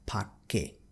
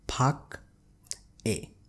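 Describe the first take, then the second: First: The final consonant moves into the next syllable. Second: The final consonant stays in the first syllable. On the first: The speaker calls it right. "but it will be read as pakke" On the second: The speaker calls it wrong. "in this last word we have pak a"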